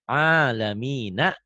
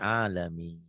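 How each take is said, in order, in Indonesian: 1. Kata ini berakhir dengan vokal 'a'. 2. Kata ini berakhir pada 'n' tanpa vokal.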